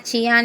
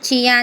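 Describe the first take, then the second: No difference in how they are said.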